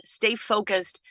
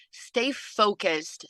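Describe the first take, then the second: First: Said in the usual way. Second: Slow, deliberate advice. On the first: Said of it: "repeated advice, second take". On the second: Shown as a demonstration. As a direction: Stay focused said very slowly and a little softer. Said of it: "repeated advice, first take slowed".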